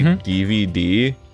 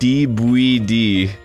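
First: The middle letter is said with a V sound. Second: The middle letter is said with a B sound.

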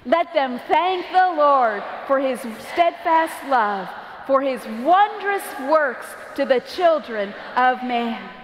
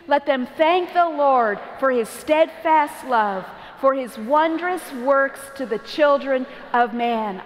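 First: It is said with more passion and energy. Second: It is said calmly, with little passion.

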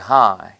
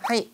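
First: Hi is long, mostly on ha, short ending. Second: Hi is short and choppy, syllables cut apart. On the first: The speaker calls it right. "길게 하고 70%는 하로 가고 이를 짧게" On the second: The speaker calls it wrong. "너무 일본 사람처럼 하이, 하이 이렇게 끊지 말고"

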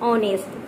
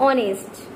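Both takes have the same delivery.

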